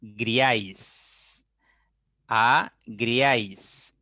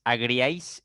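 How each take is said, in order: First: Very slow, syllable by syllable; agriáis said as a-griáis in slow separate beats; agriáis broken into two slow syllables; split into syllables. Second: Said in the usual way. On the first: Shown as a demonstration. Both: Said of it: "separan esta palabra en sílabas".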